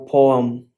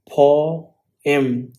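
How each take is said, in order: First: "poem" said as POH-um; "poem" run together, poh-um; alternative pronunciation. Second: "Poem" drawn out as POH-em; "Poem" slow, with a clear em at the end; two distinct syllables. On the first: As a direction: say "poem" with a weak um ending. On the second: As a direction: split "Poem" slowly into poh, em. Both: Shown as a demonstration. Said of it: "meant to be two distinct syllable".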